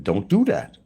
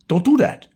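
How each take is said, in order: First: Said in the usual way. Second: Put-on high, loud German-accented command. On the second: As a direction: joke German doctor, pitched way up. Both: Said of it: "Gotta put a German accent".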